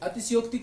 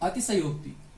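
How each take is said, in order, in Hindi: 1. 'sh' ध्वनि आधी कटी है, उसके स्वर के बिना। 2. 'sh' ध्वनि पूरी है, उसके स्वर के साथ। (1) "इस सा को क्या कर देते हैं, आधा कर देते हैं" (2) "जबकि ये पूरा क्या होता है"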